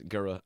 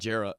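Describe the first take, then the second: First: The syllable starts with a hard G sound. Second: The syllable starts with a soft J sound. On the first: The speaker calls it right. "It's Gura" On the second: The speaker calls it wrong. "It's not Jera"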